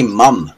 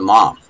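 First: "mum" with a short uh vowel; Canadian mum. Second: "mom" with an open ah vowel; American mom. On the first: Voice actor contrasting with American, uh vowel in "mum". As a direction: say "mum" to rhyme with drum. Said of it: "we say mum as opposed to mom". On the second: Voice actor giving American version, ah vowel in "mom". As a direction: say "mom" as "mahm". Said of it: "as opposed to mom". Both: Shown as a demonstration.

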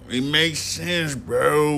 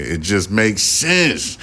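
First: Higher, softer and slow, teasing; playful high voice. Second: Said in the usual way. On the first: Acted. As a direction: sing the catchphrase back in a goofy high voice. Playful repeat of catchphrase.

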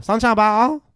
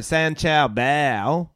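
First: Hammed-up Chinese accent; exaggerated Chinese accent. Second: Slow, drawn-out Chinese accent take; mock Chinese accent, slow. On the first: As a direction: punch the name up in a Chinese accent. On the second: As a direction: say the name slowly in a Chinese accent. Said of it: "or am I going". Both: Shown as a demonstration.

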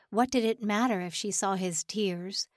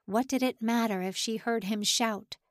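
First: Whisper. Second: Said in the usual way. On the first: Shown as a demonstration. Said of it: "unvoiced whisper". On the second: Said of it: "plain take".

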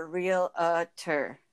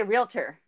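First: "realtor" slowly in three parts, REE-uh-ter; slow, lower, spelled-out "realtor"; correct realtor. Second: "realtor" in two syllables, REEL-ter; quick two-syllable "realtor"; colloquial realtor. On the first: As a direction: sound out "realtor" syllable by syllable. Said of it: "And it's a realtor". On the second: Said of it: "We say realtor". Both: Shown as a demonstration.

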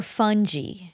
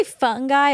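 First: "fungi" with a soft g, ending "jee"; "fungi" rhyming with "spongy", soft g. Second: "fungi" said like "fun guy". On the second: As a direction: end "fungi" on a hard g and "eye". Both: Shown as a demonstration. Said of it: "Do you say fungi or fungi?".

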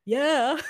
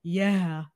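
First: A hint of the wrestling catchphrase yeah; lightly voiced catchphrase yeah; L A Knight yeah. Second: Low growled catchphrase yeah; deep L A Knight yeah. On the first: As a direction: say yeah on request, lightly punched. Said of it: "This is for you to say y". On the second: Pretend. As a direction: lower catchphrase yeah, pushed from the chest. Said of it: "'cause I gotta get really deep".

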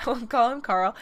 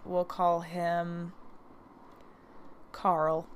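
First: "we'll call him Carl" said quickly through a laugh; higher, amused "Carl" straight after laughing; laughing repeat. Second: Slow "we'll call him", long pause before "Carl"; drawn-out "we'll call him", then "Carl" after a beat; slow dramatic pause. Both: Shown as a demonstration.

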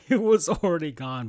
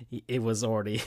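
First: Laughing through the words. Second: Said in the usual way. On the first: Real, not acted. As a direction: chuckle at the lost voice.

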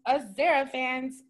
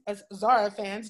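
First: Zara said as "ZAIR-uh"; regional Zara pronunciation. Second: Zara said as "ZAR-uh"; other regional Zara pronunciation. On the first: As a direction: rhyme the start of Zara with "air". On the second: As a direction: open "ah" in the first syllable of Zara. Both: Shown as a demonstration. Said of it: "depending on where you're from".

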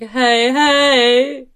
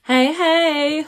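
First: High, loud, hollow hey hey; dead inside greeting. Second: High, loud, flat hey hey; dead inside greeting. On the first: Retold or imitated. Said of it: "I didn't even say it with any enthusiasm". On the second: Real, not acted. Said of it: "really dead inside". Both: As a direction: greet with no enthusiasm at all.

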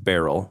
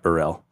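First: Barrel stressed on the first syllable, "BARE-ul"; correct pronunciation. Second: Burrell stressed on the second syllable, "buh-RELL"; mispronunciation shown. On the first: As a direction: say Barrel like the ordinary word for a cask. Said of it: "they said it's pronounced Barrel". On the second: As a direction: say Burrell with a weak first syllable and stressed ending. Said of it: "not Burrell". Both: Shown as a demonstration.

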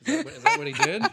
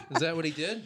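First: Asking through a laugh; laughing out the question. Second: Said in the usual way. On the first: Real, not acted. Laughing disbelief at Rogers joke.

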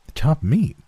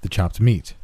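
First: High "chopped meat?" with the pitch rising on "meat"; stalling question, lifted at the end of "meat"; questioning echo. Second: "chopped meat" stated evenly, no question rise; level, patient "chopped meat", settled on "meat"; patient repetition. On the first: Boy stalls when questioned by father. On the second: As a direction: repeat "chopped meat" back as a firm statement. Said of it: "He waited patiently". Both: A narrator's reading.

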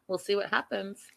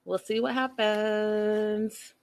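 First: Said in the usual way. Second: Slow, drawn-out teasing line; ominous tease. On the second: Shown as a demonstration. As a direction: stretch it out with suspense. Repeated ominously.

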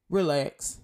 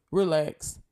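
First: Calm, settling word; gentle reassuring relax; soothing relax. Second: Calm, settling word said once more; gentle reassuring relax; soothing relax again. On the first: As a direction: tell them to breathe. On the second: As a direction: ease yourself down too. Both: Real, not acted. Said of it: "I'm saying it to myself too".

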